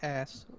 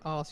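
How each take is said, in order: First: The vowel sounds American. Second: The vowel sounds non-American. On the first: "you say ass, like that" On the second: "instead of saying"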